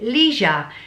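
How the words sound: It is said the American way.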